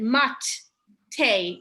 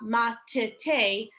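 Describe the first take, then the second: First: The first t closes a syllable, with no vowel after. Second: A short eh vowel follows the first t. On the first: The speaker calls it wrong. "Usually I would blend mat te" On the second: The speaker calls it right. "a little bit more of an eh sound"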